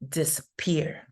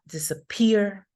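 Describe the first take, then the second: First: The first syllable has a light secondary stress. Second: The first syllable has no stress at all. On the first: The speaker calls it right. "another less prominent stress in di" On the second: The speaker calls it wrong. "so it's not disappear"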